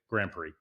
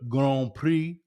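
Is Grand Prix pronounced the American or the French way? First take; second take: American; French. First: It is pronounced with a plain American accent. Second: It is pronounced with a French accent. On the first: "or do you keep it real and just say" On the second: "do you suddenly adopt a French accent when you refer to the"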